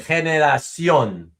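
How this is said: The c is said like s. This is how other Spanish-speaking countries say it. "every other Spanish speaking country would say"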